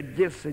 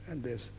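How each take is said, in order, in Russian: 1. Слово произносится резко и грубо. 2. Слово произносится мягко и нежно. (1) "они даже Одесса не говорят" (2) "я не резко, как шпана, а так Одесса"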